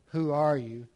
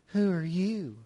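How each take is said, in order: First: The question is asked in a plain, neutral tone. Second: The question is asked in a mocking, sarcastic tone. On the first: A simple request to know who someone is. "He doesn't just come along and say" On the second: The listener is belittled and their worth doubted. "a little bit more sarcastic tone"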